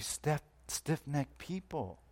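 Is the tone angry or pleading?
pleading. It is said gently, like a plea.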